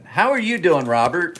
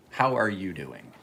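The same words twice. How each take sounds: First: Bright, high, loud hello to a regular; upbeat high call-out; cheery greeting. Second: Sincere quiet concern; concerned check-in. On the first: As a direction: sing out the greeting to a viewer. Greeting a viewer in chat. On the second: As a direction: ask gently, knowing he's had a hard time. Had some stuff going on. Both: Real, not acted.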